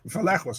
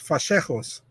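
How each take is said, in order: First: The middle consonant sounds like a plain L. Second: The middle consonant sounds like a SH. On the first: The speaker calls it wrong. "now they say it wrong. Now it's like Valejos" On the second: The speaker calls it right. "No, it's Fachejos"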